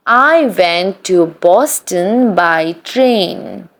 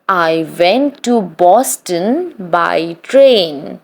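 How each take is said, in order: Both takes have the same delivery.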